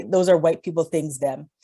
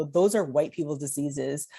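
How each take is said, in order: First: Light Jamaican accent, imitating dad; a hint of a Jamaican dad's voice. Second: Said in the usual way. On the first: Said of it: "my terrible Jamaican accent". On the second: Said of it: "or actually what he would actually say".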